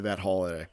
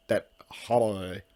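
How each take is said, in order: First: Said in the usual way. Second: "holiday" drawn out slowly in a would-be Irish way; mock Irish pronunciation. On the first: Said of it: "Why did I say it like that?". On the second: Real, not acted. Host jokingly claims it's how they say it in Ireland, mock Irish "holiday". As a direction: say "holiday" slow and squashed, as if Irish. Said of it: "That's how they say it in Ireland".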